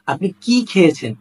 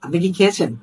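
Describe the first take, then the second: First: কি held long and emphasized; drawn-out কি. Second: Said in the usual way. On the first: Shown as a demonstration. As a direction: stretch কি long before খেয়েছেন. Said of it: "মানে টেনে বলি". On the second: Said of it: "হ্যাঁ বা না দিয়েও বলতে পারি".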